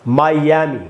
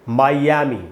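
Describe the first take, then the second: No difference in how they are said.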